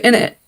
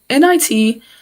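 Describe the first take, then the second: First: IT is said as the single word "it". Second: IT is said as two separate letters. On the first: The speaker calls it wrong. "I was about to say in it" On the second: The speaker calls it right. "I'm trying to say I T"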